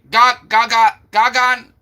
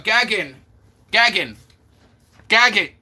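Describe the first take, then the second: First: "Gagan" with open ah vowels; pronunciation gah-GAHN. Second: "Gagin" with short a, falling each time; pronunciation GAG-in. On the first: Streamer trying the other version, "Gagan" with ah vowels. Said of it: "that's what I said". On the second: Streamer practising a chatter's name, "Gagin" as GAG-in. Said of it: "Gagin last time, but you said no". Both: Shown as a demonstration.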